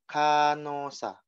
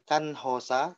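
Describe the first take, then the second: First: The h is silent; n links to the vowel. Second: The h sound is pronounced after the n. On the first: The speaker calls it right. "tapi Kanosa ya" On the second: The speaker calls it wrong. "bukan Kanhosa"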